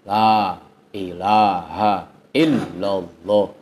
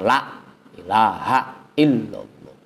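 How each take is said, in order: First: The first vowel is held long without a stop. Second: The first vowel is cut short with a glottal stop. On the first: The speaker calls it right. "Harusnya dipanjangin aja" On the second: The speaker calls it wrong.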